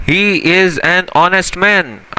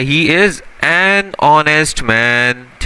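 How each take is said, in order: First: Very slow, word-by-word He is an honest man; slow example read. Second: Slow example read. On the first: Teacher reading the example sentence very slowly. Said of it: "अभी इसकी example देखते हैं". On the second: Teacher rereading the example sentence slowly. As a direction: spell it out word by word, unhurried. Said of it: "अब देखो ये क्या लिखा हुआ है". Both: Shown as a demonstration.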